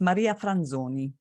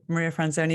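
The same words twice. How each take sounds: First: The name is said with an Italian accent. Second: The name is said with an English accent. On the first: "If you're Italian" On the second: "if you're English"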